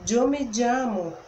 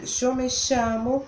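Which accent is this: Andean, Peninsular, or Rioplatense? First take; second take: Andean; Rioplatense. First: It is said in an Andean Spanish accent. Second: The ll sounds like sh, Rioplatense style. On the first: "pela variante, né, do espanhol andino" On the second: "com o som do sh ... espanhol rioplatense"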